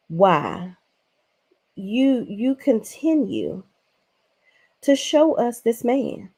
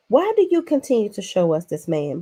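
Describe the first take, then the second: First: Each word dragged out with long pauses between; slow halting pauses. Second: Said in the usual way. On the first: Acted. Recapper asking Bronwyn why she keeps showing her husband, slow and halting. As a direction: drag it out word by word in disbelief. Drawn-out exasperated question to cast member.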